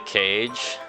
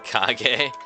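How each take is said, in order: First: It is said like the English word cage. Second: It is said as the Japanese word Kage. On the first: The speaker calls it wrong. "I called him the uh, the cage" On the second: The speaker calls it right. "it was pronounced Kage"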